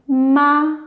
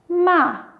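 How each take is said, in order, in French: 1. La hauteur reste haute et égale tout du long. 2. La hauteur tombe brutalement de haut en bas.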